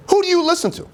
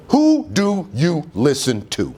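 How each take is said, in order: First: High emphatic repeat. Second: Slow pointed question. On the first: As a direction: jump way up in pitch on "Who". Repeats question much higher. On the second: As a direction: ask it slowly, word by word. Slow first asking. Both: Real, not acted.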